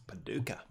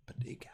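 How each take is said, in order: First: Paducah said the Australian way, rising pəDUka; a quick Australian-accented Paducah. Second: Said in the usual way. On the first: Shown as a demonstration. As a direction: Paducah with a light Australian twang. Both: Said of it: "That's how you'd say it with an Australian accent".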